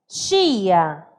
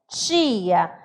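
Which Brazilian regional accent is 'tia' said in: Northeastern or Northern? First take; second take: Northern; Northern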